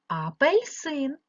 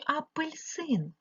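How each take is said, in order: First: Апельсин with a clear е in пель; Апельсин, middle vowel е rather than и. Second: Апельсин said with и, as апильсин; апельсин slowly, middle vowel turned to и. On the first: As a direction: say Апельсин slowly as а-пель-син. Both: Shown as a demonstration. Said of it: "голосними е чи и".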